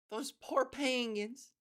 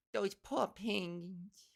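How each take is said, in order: First: Slow, higher-pitched pitying "poor penguins"; mock pity. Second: Very slow New York "poor", r dropped; accented mock pity. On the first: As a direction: draw out "poor penguins" in sympathy.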